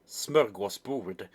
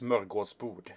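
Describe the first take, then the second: First: It is said with plain English vowels. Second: It is said with Swedish ö and å vowels.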